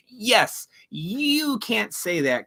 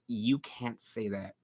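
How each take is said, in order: First: Mocking the gullible. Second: Mocking uppity women. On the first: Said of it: "they are just being drawn in and going". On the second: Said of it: "uppity white class women goes".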